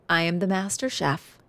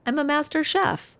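First: Lightly voiced proud boast in her own style; her own twist. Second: Higher, lightly voiced proud little boy; imitating the son. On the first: Mother retelling son's boast with her own twist. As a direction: say it your way, a proud little flourish. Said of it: "I have a special twist on how I say it". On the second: Son proudly telling mom he cooked, higher childlike boast. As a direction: pitch up and boast like the kid. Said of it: "It's not exactly how he said it".

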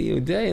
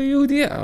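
First: Raised, questioning echo; imitated disbelief. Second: Very high, louder single-word reveal; retold blurted confession. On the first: Father hearing who the bride is, imitated disbelief. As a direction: throw the word back as a rising question. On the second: Son confessing to father about his bride, high blurt. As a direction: blurt it out high, as the dreaded answer.

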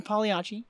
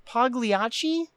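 First: "Pagliacci" with no hard G; silent G pronunciation. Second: "Pagliacci" with a sounded hard G; hard G pronunciation. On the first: Repeating the corrected clown name, "Pagliacci" with G silent. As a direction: say "Pagliacci" as pah-lee-AH-chee. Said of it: "it was pronounced Pagliacci". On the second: Naming the opera clown, "Pagliacci" with the G pronounced. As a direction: say "Pagliacci" as pag-lee-AH-chee. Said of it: "It's got a G in it though". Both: Real, not acted.

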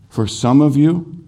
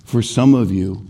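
First: Higher, rising repeat of for some of you; emphatic repeat. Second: Said in the usual way. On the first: Real, not acted. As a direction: lift of up on the repeat to press the point.

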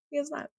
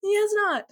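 First: Soft repeated aside; quiet. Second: High playful voice; high mock voice. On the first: Acted. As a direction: drop it to a murmur. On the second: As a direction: squeak it out.

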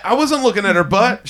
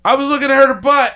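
First: Wasn't pushed with a rising correction; stress on wasn't. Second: High blurted admission; mock confession. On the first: Retold or imitated. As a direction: hit wasn't to deny it. Correcting the confession. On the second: Confessing a sin mockingly.

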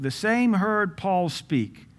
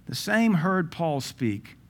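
First: "same" drawn out slow and high; slow emphatic reading. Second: "same" slow and falling, less lift; re-read it calmly, lingering on "same". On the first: Preacher repeating the verse to his church, slow and stressed. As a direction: lean hard on "same", slowly. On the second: Preacher re-reading the verse, slower and calmer. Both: Shown as a demonstration.

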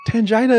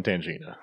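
First: "Tangina" with JAI as in "vagina"; playful mispronunciation. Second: "Tangina" with JEE in the middle; correct name pronunciation. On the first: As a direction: say "Tangina" with a long eye in the middle. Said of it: "so much funner to say". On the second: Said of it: "funner to say than Tangina". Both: Shown as a demonstration.

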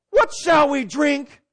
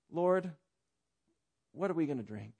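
First: Loud, high, slow mock whine; whiny complaint. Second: Trusting request. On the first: Preacher mimics Israelites grumbling for water, mock whiny complaint. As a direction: wail it like a child mid-tantrum. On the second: Acted. Preacher shows the other way of asking the Lord, humble trust. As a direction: ask quietly, trusting the answer will come. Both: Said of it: "there's two ways of saying".

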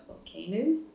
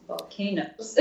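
First: "volcanoes?" asked with a rising, doubtful tune; "volcanoes?" rising as if checking the word; unsure question. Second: "Volcanoes." settled with a falling tune; "Volcanoes." stated firmly, ending down; confident statement. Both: Shown as a demonstration.

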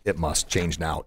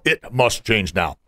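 First: Soft, low restating of the rule; quietly repeating the first belief; quiet restatement. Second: Slow, weighty delivery of the rule; slow emphatic mantra. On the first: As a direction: say it softly, like a correction. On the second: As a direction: hammer each word slowly as a motto. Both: Shown as a demonstration. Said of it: "the first one was".

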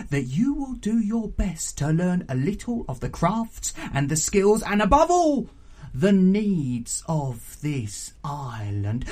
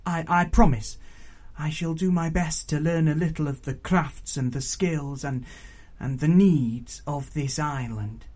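First: Emphatic aunt exacting a promise, slowing at the end; stern raucous auntie. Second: Put-on earnest young Pignut. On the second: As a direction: repeat the vow earnestly, a little hesitant.

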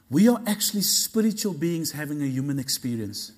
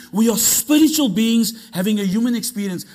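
First: Deliberate, settled teaching tone; measured statement. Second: Raised, louder preacher's proclamation; fired-up, insistent declaration; emphatic repeat. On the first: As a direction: state it calmly, letting it land. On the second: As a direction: drive each phrase home with force. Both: Shown as a demonstration. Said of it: "Let me say that again".

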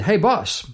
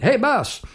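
First: Said in the usual way. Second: "Hey, boss" in a high, bright American accent, higher than his own voice. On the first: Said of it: "like an American accent". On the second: Shown as a demonstration. Digger calling out to his boss, in an American accent. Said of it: "like an American accent that comes out".

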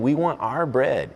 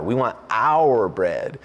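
First: Said in the usual way. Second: "our" drawn out long and leaned on; slow down and hit the word "our"; stress on OUR. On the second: Retold or imitated. Preacher voicing the crowd's demand to Jesus, stress on "our". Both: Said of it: "Emphasis on our".

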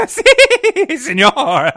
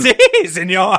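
First: Put-on very high, loud cackling Puerto Rican accent. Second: Put-on cackling Puerto Rican accent, high and loud. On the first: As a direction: shriek it through laughter, thick Puerto Rican accent. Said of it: "what Connor thinks Puerto Rican women sound like when they cackle". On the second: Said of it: "Midge cackled in a thick Puerto Rican accent".

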